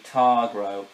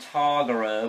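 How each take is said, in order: First: It has no extra vowel, two syllables. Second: It has an extra vowel, three syllables. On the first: The speaker calls it right. "so it's actually Targro" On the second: The speaker calls it wrong. "Originally I called him Targaro, but now I realize it sounded like there was an extra A in it"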